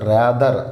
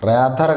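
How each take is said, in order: First: The middle consonant is a voiced d-like sound. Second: The middle consonant is a voiceless th sound. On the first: The speaker calls it right. "ర్యాదర్ దా sound అండి ఇది" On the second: The speaker calls it wrong. "ర్యాథర్ కాదు"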